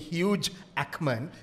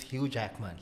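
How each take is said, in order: First: The j sound ends the first word. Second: The j sound starts the second word. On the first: The speaker calls it wrong. "You don't say huge Ackman" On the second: The speaker calls it right. "it's Hugh Jackman"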